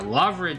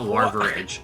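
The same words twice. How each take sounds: First: The word is said without an extra R. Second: The word is said with an extra R. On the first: The speaker calls it right. "Larvidge is what we're looking for" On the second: The speaker calls it wrong. "not Larvidge. I heard an extra R there"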